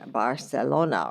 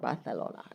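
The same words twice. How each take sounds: First: The name is said with English pronunciation. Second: The name is said with local Spanish pronunciation.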